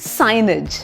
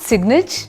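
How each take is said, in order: First: The first syllable is said as 'sine' without g. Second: The first syllable is said as 'sig' with g. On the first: The speaker calls it right. "It's साइनेज" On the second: The speaker calls it wrong. "Is not सिग्नेज"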